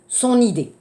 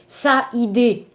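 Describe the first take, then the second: First: SON linked into IDÉE with a sounded N; liaison before vowel. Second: SA and IDÉE kept apart, A meeting I; no linking consonant in "sa idée"; wrong vowel clash. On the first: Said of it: "de la phonétique". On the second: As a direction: say "sa idée" with both vowels separate. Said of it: "n'oubliez pas aussi le problème". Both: Shown as a demonstration.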